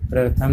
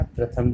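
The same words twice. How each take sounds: First: प्रथम with an extra r, prar-tham; wrong pronunciation. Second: Said in the usual way. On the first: Shown as a demonstration. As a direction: add a second र before थ in प्रथम. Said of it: "नहीं कहना". (प्रथम को प्रर-थम बोलें) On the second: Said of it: "कहना है".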